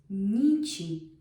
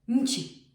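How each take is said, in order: First: The middle consonant is long, soft and flowing. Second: The middle consonant is short, sharp and hard. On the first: The speaker calls it right. "you need that softening sound for the ni to flow" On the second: The speaker calls it wrong. "If you would try to put the short ni, it wouldn't work"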